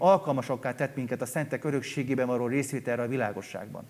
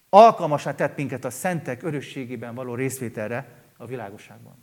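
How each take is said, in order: First: The phrase is read at a normal, quicker pace. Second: The phrase is read slowly and deliberately.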